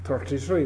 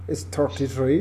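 First: "Thirty-three" said the Irish way, with a t sound and no th, like "torty-tree". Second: Said in the usual way. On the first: Shown as a demonstration. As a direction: say "Thirty-three" as an Irishman would, with hard t's. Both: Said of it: "the way the Irish used to say the number thirty-three".

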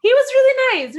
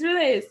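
First: High, loud gushing. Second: Said in the usual way. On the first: Real, not acted. Praising the driver, loud and gushing. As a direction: rave about him.

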